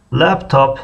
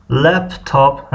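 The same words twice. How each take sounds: First: Said in the usual way. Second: "لپتاپ" drawn out slowly, syllable by syllable; slow word demo. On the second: Shown as a demonstration. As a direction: say "لپتاپ" slowly in two separate parts. Teacher repeats the word slowly. («لپتاپ» آهسته و هجا به هجا)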